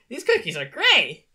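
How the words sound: It is said relaxed and varied.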